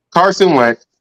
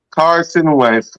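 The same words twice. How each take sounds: First: Said in the usual way. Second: Carson Wentz drawn out slowly, falling; slow dramatic. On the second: Shown as a demonstration.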